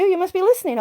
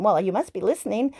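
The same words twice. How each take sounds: First: Higher, louder stress on you; excited realization. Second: Said in the usual way. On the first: Retold or imitated. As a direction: hit "you" up high, surprised. Realizing the body listens.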